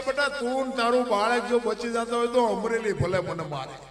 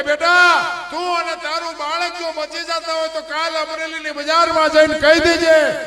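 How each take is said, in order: First: Said in the usual way. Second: Louder, higher urging; saint's loud command. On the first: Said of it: "ઈ કે". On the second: Acted. Saint tells the girl to name him, loud. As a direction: call it out with full conviction. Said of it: "આ ભારતનો સંત એમ કહેતો હોય".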